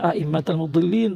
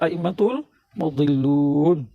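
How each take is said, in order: First: The words end in -al and -in. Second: The words end in -ul and -un. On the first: The speaker calls it wrong. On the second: The speaker calls it right.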